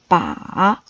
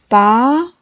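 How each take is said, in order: First: It is said with a low dipping pitch. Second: It is said with a rising pitch.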